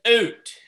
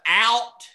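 First: It is said with a Canadian oot vowel. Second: It is said with a standard vowel.

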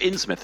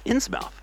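First: The ending is reduced to a 'muth' sound. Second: The ending is a full 'mouth' sound.

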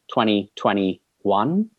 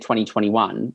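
First: The number is said slowly, drawn out. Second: The number is said at ordinary speed. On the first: "if you slow it down" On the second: "when you say 2021"

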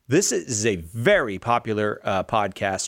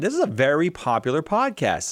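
First: The voice sounds plain and matter-of-fact. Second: The voice sounds surprised. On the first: The speaker calls it right. "I'm just going to say it with the app" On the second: The speaker calls it wrong. "I don't know why I have surprise in my voice"

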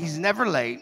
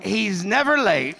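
First: It is said in a normal speaking voice. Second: It is said in a dramatic preaching voice.

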